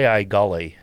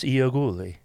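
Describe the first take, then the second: First: The surname is said in a simplified, shortened form. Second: The surname is said in its fuller original form. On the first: This is the family's everyday local version of the name. "the way we started pronouncing it in Toledo ... a simpler way of saying the last name" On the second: This is the name's original form. "But it's Ioguli"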